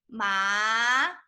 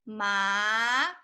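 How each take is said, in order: First: The pitch rises from mid to high. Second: The pitch rises from mid to high.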